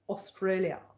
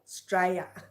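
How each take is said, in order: First: It is said in a posh accent. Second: It is said in a broad Australian accent.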